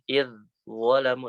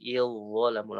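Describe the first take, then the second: First: The dh sound is said separately before dhalamu. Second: The dh sound merges straight into dhalamu. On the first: The speaker calls it wrong. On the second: The speaker calls it right. "tapi il dhalamu langsung"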